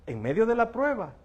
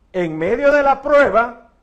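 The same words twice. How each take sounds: First: Said in the usual way. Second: Louder and slower, every word weighted; emphatic repeat. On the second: Acted. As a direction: lean hard into "en medio de la prueba". Phrase repeated, then stressed.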